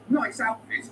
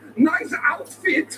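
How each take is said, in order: First: It is said in the speaker's ordinary accent. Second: It is said in a put-on German accent. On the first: It comes across as a pleasant compliment. "you'd be delighted" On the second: It comes across as a cruel insult. "you would kill yourself"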